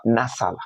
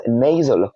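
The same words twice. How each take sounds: First: "nasal" as "nas-al"; short a and hissed s in "nasal"; mispronunciation. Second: "nasal" as "nay-zəl"; long ay and buzzed z in "nasal"; correct pronunciation. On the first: Teacher showing learners what to avoid, mispronunciation. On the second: Teacher modelling the word for learners, correct pronunciation. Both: Shown as a demonstration. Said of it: "not, uh".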